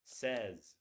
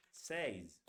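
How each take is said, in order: First: "Says" said as "sez", short e; correct says. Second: "says" said as "sayz", wrong. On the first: Teacher giving the correct sound of "Says". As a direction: say "Says" as "sez", not "sayz". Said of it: "It's pronounced like this". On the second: Teacher showing the wrong way to say "says". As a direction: say "says" with the "ay" diphthong, as the wrong model. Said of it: "but it's not pronounced like". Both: Shown as a demonstration.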